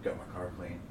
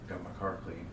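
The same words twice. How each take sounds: First: Low, soft deadpan repeat; flat droning friend; monotone voice. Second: Low, soft deadpan remark; flat droning friend; monotone voice. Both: Retold or imitated. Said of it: "he's got that monotone voice".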